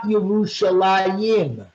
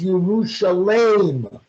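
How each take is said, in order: First: The name ends in the sound -alayim. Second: The name ends in the sound -alem. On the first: The name implies two cities. The speaker calls it wrong. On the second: The name refers to one single city. The speaker calls it right. "the word is"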